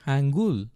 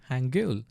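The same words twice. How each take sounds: First: "hangul" ending in a simple "gool"; familiar pronunciation. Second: "hangul" ending in "gyul", with a y glide; corrected pronunciation. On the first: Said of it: "it's pronounced". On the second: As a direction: say "hangul" as "han-gyul", softer. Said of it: "I mean". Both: Shown as a demonstration.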